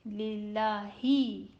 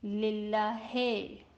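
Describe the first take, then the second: First: The final vowel is a close 'ee' sound. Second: The final vowel is a mid 'ay' sound. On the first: The speaker calls it right. "it would be read with e sound" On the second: The speaker calls it wrong. "That is majhul and is not correct"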